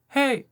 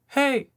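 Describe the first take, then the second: The two takes are said the same way.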